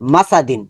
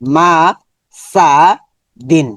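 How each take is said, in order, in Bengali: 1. সিলেবলগুলো জুড়ে একটি মসৃণ শব্দ হয়। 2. প্রতিটি সিলেবল আলাদাভাবে, থেমে থেমে বলা হয়।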